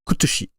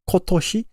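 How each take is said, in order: First: It has Okinawan u vowels instead of o. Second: It has standard Japanese o vowels.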